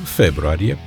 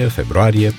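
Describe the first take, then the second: First: The stress is on the first syllable. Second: The stress is on a later syllable. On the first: The speaker calls it wrong. "anomalii de accentuare" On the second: The speaker calls it right. "în loc de"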